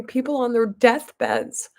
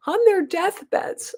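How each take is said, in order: First: Said in the usual way. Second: "on their deathbeds" much higher, rising on "their"; emphatic repeat. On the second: Real, not acted. Stressing how dying patients suffer, emphatic higher repeat. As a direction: lift "their" high in "on their deathbeds".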